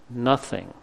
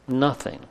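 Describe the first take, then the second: The two takes are said the same way.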